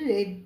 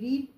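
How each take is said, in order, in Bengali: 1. স্বরটা হ্রস্ব, 'red' এর মতো। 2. স্বরটা দীর্ঘ, 'reed' এর মতো। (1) "পরের দুটোতে রেড পড়তে হয়" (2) "প্রথমটায় রিড আরিএডি রিড পড়তে হয়"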